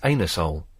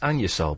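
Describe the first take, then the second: First: The first part is said like 'anus'. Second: The first part is said like 'annu'. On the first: This is how the spelling literally reads. "but obviously it's anusol" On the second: This is the official, polite pronunciation. "it's pronou- pronounced Anusol"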